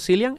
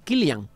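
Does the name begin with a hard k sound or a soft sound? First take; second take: soft sound; hard k. First: The name begins with a soft consonant sound. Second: The name begins with a hard k sound. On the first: The speaker calls it wrong. "Que no es, por cierto, Cillian" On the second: The speaker calls it right. "es Killian. Porque es un nombre irlandés"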